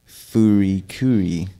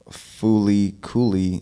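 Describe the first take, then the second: First: The words are said with R sounds. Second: The words are said with L sounds. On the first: "it'd be furi curi" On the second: "instead of fooly cooly"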